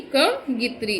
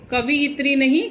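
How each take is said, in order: First: कवयित्री said kavyitri, compact, falling; correct pronunciation. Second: कवयित्री said kavayitri with an extra vowel, rising; wrong pronunciation. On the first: Teacher gives pupils the correct form, falling. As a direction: squeeze the middle of कवयित्री together. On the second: Teacher rejects the wrong form to pupils, rising. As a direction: sound the added i in कवयित्री. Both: Shown as a demonstration.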